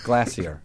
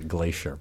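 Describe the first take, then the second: First: It is said in a British accent. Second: It is said in an American accent.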